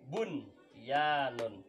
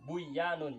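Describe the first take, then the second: First: The n sound is clearly pronounced before y. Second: The n sound is merged into the y. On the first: The speaker calls it right. "diidharkan, dijelaskan" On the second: The speaker calls it wrong. "jangan bacanya buyanun"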